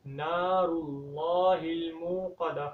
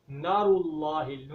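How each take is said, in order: First: نار with the a held long after nun; correct lengthening. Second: نار with a short a after nun; wrong pronunciation. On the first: Teacher models correct نار with a long vowel. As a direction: stretch the vowel in نار, slow recitation. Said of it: "تو نون کو لمبا کرنا ہے". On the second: Teacher shows the mistake, short نار. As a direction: clip the vowel in نار. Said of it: "نون کو لمبا ہی نہیں کرتے". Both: Shown as a demonstration.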